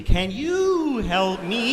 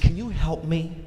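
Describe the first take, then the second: First: High, very drawn-out tuning tone; exaggerated sustained high plea; searching for his frequency. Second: Slightly raised questioning lilt; lightly voiced wife seeking attention; wife asking for help. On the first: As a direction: hold each word long and high like a signal. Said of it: "find his frequency". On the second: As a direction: ask for help, rising at the end. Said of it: "she's trying to find his frequency".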